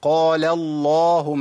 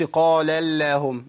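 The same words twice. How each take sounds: First: Slow "قال اللهم" with a thick, dark l; heavy lam. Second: Slow "قال اللهم" with a light l, like "lleh"; wrongly thin the l and a in "اللهم"; thin lam. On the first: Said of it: "ما أقولش قال اللهم". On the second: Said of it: "ما أقولش قال اللهم، ما ينفعش". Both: Shown as a demonstration.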